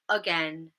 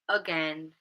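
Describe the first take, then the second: The two takes are said the same way.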